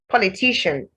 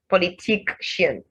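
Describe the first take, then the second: First: The middle consonant is a plain sh sound. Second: The middle consonant is a k followed by sh. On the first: The speaker calls it right. "You don't say k and sh" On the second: The speaker calls it wrong. "not politician"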